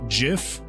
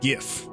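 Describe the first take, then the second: First: It starts with a soft G, like a J. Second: It starts with a hard G, as in graphic. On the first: The speaker calls it wrong. "that is the wrong answer" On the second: The speaker calls it right. "I pronounce it GIF... it stands for the uh, Graphic Interchange Format"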